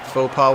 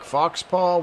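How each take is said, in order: First: It is said as foh pah, without x. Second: It is said as fox paw, with x. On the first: The speaker calls it right. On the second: The speaker calls it wrong.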